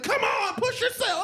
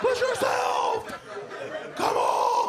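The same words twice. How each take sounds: First: Much higher, hammed-up coach urging; trainer voice. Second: Very high slow yelled push; hammed-up trainer shout. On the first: TV trainer urging a contestant, hammed-up high coaching. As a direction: egg him on like a TV trainer. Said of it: "Julianne Martin was like". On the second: TV trainer yelling at a contestant, hammed-up shout. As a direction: bellow it like a drill coach.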